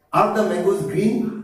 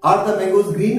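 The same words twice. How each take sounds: First: Each word of Are the mangoes green? drawn out very slowly; slow drill. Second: Said in the usual way. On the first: Shown as a demonstration. Teacher to students, modelling the question very slowly. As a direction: spell the question out slowly for learners. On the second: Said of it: "তুমি কি বলবে answer?".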